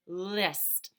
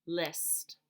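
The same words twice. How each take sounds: First: Said in the usual way. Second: "List." whispered, unvoiced; whispered word. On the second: Shown as a demonstration. Teacher whispering the word for children. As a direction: breathe "List." softly. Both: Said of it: "repeats word in different ways".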